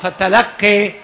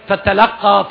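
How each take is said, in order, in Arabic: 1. الحركة الأخيرة تميل إلى صوت 'e'. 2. الحركة الأخيرة هي صوت 'a' مفتوح. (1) "والإمالة" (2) "الفتح"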